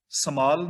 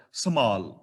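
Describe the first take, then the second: First: ਸਮਾਲ with a plain m, no h; wrong pronunciation demo. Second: ਸਮਾਲ with a breathy mh, a quarter h under the m; correct pronunciation. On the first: Teacher showing students the wrong reading, ਸਮਾਲ. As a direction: show ਸਮਾਲ as the mistake. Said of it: "ਸਮਾਲ ਨਹੀਂ". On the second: Teacher giving students the right reading, ਸਮਾਲ with mh. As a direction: add a light h to the m in ਸਮਾਲ. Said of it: "ਮੰਮੇ ਦੇ ਥੱਲੇ ਹਲੰਤ ਹੈ". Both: Shown as a demonstration.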